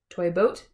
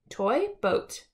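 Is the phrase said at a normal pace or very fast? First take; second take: very fast; normal. First: It is repeated very fast without pausing. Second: It is said once at a normal pace.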